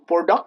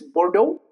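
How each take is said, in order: First: The final X sound is pronounced. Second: The final X sound is silent. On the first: The speaker calls it wrong. "It's not Bordeaux" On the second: The speaker calls it right. "X remains silent"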